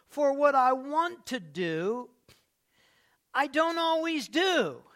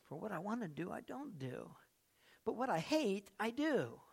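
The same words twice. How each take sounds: First: Loud, high, slow reading of the verse; emphatic scripture. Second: Soft, quiet repeat of the verse; hushed scripture. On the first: Pastor proclaiming Paul's words, loud and slow. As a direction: stretch it out and lean on every word. Preacher quoting Romans. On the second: Pastor repeating Paul's words quietly to the church. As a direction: say it almost to yourself, softly. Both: Real, not acted.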